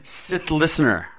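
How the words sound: The pitch falls at the end.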